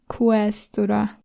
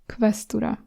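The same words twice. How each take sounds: First: The opening sound is not a 'k' plus 'v'. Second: The opening sound is a 'k' plus 'v'. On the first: The speaker calls it wrong. "I'm not saying questura" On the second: The speaker calls it right. "I'm saying questura"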